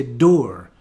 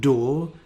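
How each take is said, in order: First: "door" with the R sounded; Scottish "door", roll out the R; Scottish accent. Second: "door" with no R; RP vowel. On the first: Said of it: "I would say ... pronouncing the R". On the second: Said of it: "Instead of". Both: Shown as a demonstration.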